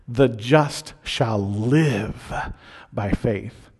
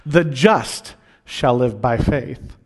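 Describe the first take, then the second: First: The stress is on the word live. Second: The stress is on the word just.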